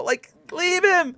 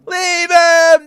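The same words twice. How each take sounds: First: High, slow pleading "leave him"; whiny plea. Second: "leave him" high and loud, pushed harder; loud whiny plea. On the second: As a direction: shout "leave him" as the begging peaks. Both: Retold or imitated. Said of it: "And I'm just like".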